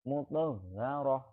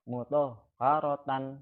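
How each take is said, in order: First: The word ends with a soft h sound. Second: The word ends with a 'tan' syllable. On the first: The speaker calls it right. "roh ya" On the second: The speaker calls it wrong.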